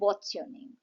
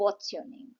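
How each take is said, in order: First: "What is" is shortened to one syllable. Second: "What is" is shortened to one syllable.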